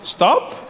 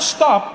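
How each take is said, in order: First: It sounds like a mild, casual suggestion. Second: It sounds like a firm, forceful command.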